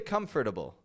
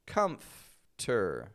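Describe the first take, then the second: First: The 'for' syllable is pronounced fully. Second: The F goes straight to the T. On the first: The speaker calls it wrong. "I don't say comfortable" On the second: The speaker calls it right. "I pronounce it as if it's comfter"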